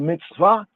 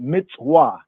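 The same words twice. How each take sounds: First: It uses the modern Hebrew pronunciation. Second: It uses the ancient Semitic pronunciation. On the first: The speaker calls it wrong. "modern Hebrew" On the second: The speaker calls it right. "ancient Afro Semitic pointing"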